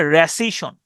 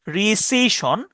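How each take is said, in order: First: "রেসিশন" opening on "re", with an e; pronunciation demo. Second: "রিসিশন" with a long "ri" at the start; pronunciation demo. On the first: Teacher contrasting two similar words, pronunciation demo. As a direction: say "রেসিশন" with "re" rather than "ri". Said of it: "আর এইটা হচ্ছে". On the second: Teacher recalling the earlier spelling, careful pronunciation demo. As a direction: say "রিসিশন" carefully, opening on "ree". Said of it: "আগের বানানটা খেয়াল করেন". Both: Shown as a demonstration.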